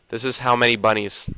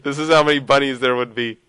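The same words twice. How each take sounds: First: Said in the usual way. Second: Said through giggles; amused, giggling delivery; laughing. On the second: Real, not acted. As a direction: laugh while getting the words out. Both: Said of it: "I don't know why I'm laughing".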